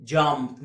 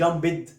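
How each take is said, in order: First: Jumped in one syllable, "jamt"; low, falling one-beat jumped ending in t; correct pronunciation. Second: Jumped in two syllables, "jam-bid"; wrong pronunciation. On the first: (نطق jumped بمقطع واحد ينتهي بتاء) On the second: (نطق jumped خطأً بمقطعين "جامبِد") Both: Shown as a demonstration. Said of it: "مش jumped".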